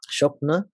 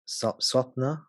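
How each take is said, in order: First: The word begins with an 'sh' sound. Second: The word begins with an 'sw' sound. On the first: "That might be my slight Bengali pronunciation there" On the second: "in Sanskrit it's pronounced swapna"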